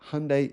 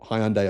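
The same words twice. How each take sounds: First: The name is said in a non-Australian pronunciation. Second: The name is said in the Australian pronunciation. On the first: The speaker calls it wrong. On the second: The speaker calls it right.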